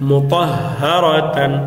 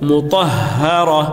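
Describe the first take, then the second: First: The word ends with the syllable tan. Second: The word ends with a plain a sound. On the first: The reciter continues without stopping. "তা দুই জবর তান" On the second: The reciter stops on this word. "থামলে মুতাহহারা"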